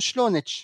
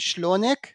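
First: The word ends with a 'ch' sound. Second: The word ends with a 'k' sound. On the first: "חלק מהעיראקים אומרים כף כמו צ'ה" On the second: "במקום שלונק"

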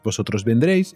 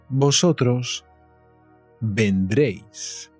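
First: It is said very fast. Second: It is said at a normal pace.

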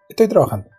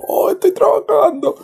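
First: It is said in a serious tone. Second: It is said in a playful, exaggerated tone.

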